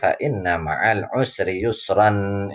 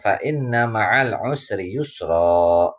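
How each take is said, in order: First: The last word ends with an n sound. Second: The last word ends in a long vowel. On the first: The reading continues into the next verse. "imam-imam di masjid pun ketika baca" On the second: The reading stops at the end of the verse. "Ini yang dinamakan mad iwad"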